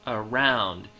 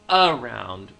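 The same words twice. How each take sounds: First: The stress falls heavily on the second syllable. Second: The stress is not on the second syllable. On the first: The speaker calls it right. "a much heavier stress on the second syllable" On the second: The speaker calls it wrong. "not how we talk"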